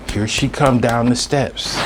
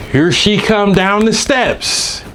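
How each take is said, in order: First: Said in the usual way. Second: Slow, louder and higher, each word leaned on; emphatic repeat. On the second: Real, not acted. Telling friends she arrives again, slow loud emphasis. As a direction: drag it out in disbelief.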